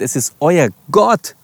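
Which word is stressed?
Gott. The stress is on the word Gott. It is God, not just anyone. "Oder anders betont"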